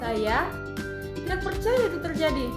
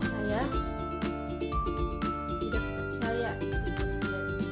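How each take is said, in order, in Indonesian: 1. Nada naik tiba-tiba, terdengar kaget. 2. Nada rendah dan lambat, terdengar sedih. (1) "kaget. Dengan atau nada naik secara tiba-tiba" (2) "sedih atau nada rendah atau lambat"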